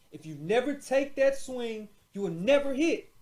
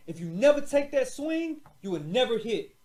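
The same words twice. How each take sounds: The two takes are said the same way.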